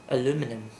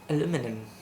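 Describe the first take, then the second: First: The word is said in an American way. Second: The same.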